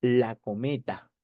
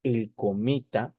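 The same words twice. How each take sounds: First: "la cometa" said slowly, the "la" stressed; slow emphasis. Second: "el cometa" said slowly, the "el" stressed; slow emphasis. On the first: Teacher slows down to show "la cometa" to the class. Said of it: "cámbiale el el por la". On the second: Teacher slows down to show "el cometa" to the class. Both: Shown as a demonstration.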